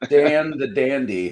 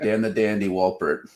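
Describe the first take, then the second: First: Slow, raised announcement of a nickname; grand title. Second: Said in the usual way. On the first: Pretend. Crowning cohost Daniel with a silly nickname, slow grand announcing. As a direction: bestow the title on your cohost. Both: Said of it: "How about that?".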